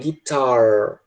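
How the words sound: The final R sound is strongly pronounced. "no inglês americano é guitar. Eles puxam o R bem muito"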